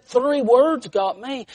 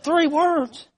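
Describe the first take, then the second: First: "Three words got me" raised and drawn out; emphatic repeat. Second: Very high, questioning echo; puzzled echo question. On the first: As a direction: spell out "Three words got me" slowly for the listener. Old lady repeats her statement. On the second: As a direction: repeat it back as if taken aback. Preacher echoes her, puzzled. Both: Retold or imitated.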